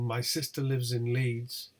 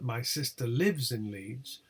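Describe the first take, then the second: First: The intonation is barely noticeable. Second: The intonation contour is strongly marked.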